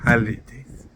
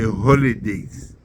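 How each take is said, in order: First: It is said in an American accent. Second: It is said in a Ugandan accent.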